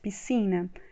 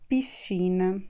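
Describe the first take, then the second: First: The middle consonant is a plain s sound. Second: The middle consonant is a sh sound. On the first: The speaker calls it wrong. "a gente tende a ler como no português" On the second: The speaker calls it right. "o correto é piscina"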